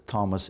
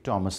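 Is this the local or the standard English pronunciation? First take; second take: local; standard English. First: It is said the common local way. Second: It is said the standard English way. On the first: The speaker calls it wrong. "Thomas is usually pronounced as Thomas" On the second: The speaker calls it right. "It should be Thomas"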